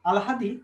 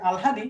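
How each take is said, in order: First: আলহাদি said slowly, ল first then হ, আল-হাদি; careful pronunciation. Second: Said in the usual way. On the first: Shown as a demonstration. Teacher shows students how to say আলহাদি, slowly. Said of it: "আলহাদির উচ্চারণ হচ্ছে এরকম, দেখো, আগে হচ্ছে ল". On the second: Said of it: "আলহাদির উচ্চারণ হচ্ছে".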